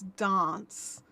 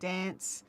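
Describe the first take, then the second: First: It is said in a South Australian accent. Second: It is said in a Queensland accent. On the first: "if you go to South Australia" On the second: "people like me from Queensland who say"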